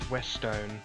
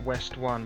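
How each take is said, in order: First: The name ends rhyming with 'stone'. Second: The name ends with the word 'one'. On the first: "it could be pronounced Westone" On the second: "I've always pronounced that West One"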